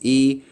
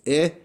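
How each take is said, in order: First: The vowel is a long, tense ee sound. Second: The vowel is a short, lax i sound. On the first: "long sound is e" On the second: "a short sound for Yoda is eh"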